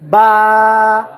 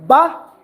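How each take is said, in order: First: The vowel is drawn out long. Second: The vowel is short and clipped. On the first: The speaker calls it right. "you say ba, you prolong" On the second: The speaker calls it wrong. "instead of saying ba"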